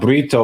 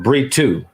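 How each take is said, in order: First: The name is said with an English reading. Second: The name is said with a Portuguese reading. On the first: The speaker calls it wrong. "it looks like the proper pronunciation is not Brito" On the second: The speaker calls it right. "but Britu"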